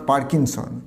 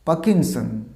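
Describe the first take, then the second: First: পার্কিনসন as "paar-king-son"; wrong pronunciation. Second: পার্কিনসন as "pa-kin-son", r silent; corrected pronunciation. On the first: Teacher rejecting the error, পার্কিনসন with audible r. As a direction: sound the r in পার্কিনসন. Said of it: "this is not পার্কিনসন". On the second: Teacher modelling the correction, পার্কিনসন without r. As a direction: drop the r from পার্কিনসন. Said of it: "উচ্চারণটা হবে". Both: Shown as a demonstration.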